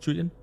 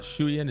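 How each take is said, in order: First: The name begins with a 'ch' sound. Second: The name begins with a 'sh' sound. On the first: The speaker calls it right. "it's Chuyin?" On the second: The speaker calls it wrong. "So it's not Shuyin"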